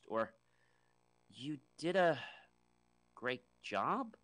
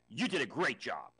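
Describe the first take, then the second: First: The voice sounds unsure and questioning. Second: The voice sounds angry and harsh. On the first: The speaker doubts the job was good. "I'm not even sure" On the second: The praise is not really meant. "I almost sound angry"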